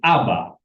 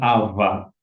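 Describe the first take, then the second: First: The middle consonant is a hard b sound. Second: The middle consonant is a soft v sound. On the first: The speaker calls it right. "tapi Aba" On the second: The speaker calls it wrong. "kamu tidak boleh bilang Ava"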